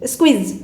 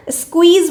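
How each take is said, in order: First: स्क्वीज rushed, the kw sound dropped to a quick skiz; hurried slurred squeeze. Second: स्क्वीज with a clear kw sound, every sound said in full; careful full squeeze. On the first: Teacher shows students the sloppy rushed word. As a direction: clip स्क्वीज fast so the q sound goes missing. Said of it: "आपने जल्दी जल्दी में बोला स्क्वीज". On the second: Teacher shows the correct word to students, careful and full. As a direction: articulate स्क्वीज fully, q sound and all. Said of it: "तो क्यू की sound नहीं आती है पूरी". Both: Shown as a demonstration.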